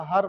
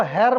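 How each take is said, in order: First: "हर" with an open a vowel; corrected her. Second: "हेर" with an e vowel, like hair; mispronounced her. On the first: Teacher giving the correct reading, "हर" said with an open a. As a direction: say "हर" without the e sound of hair. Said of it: "इसको हर पढ़ना". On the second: Teacher showing the reading to avoid, "हेर" said with an e vowel. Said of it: "इसको हेर मत पढ़ना". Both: Shown as a demonstration.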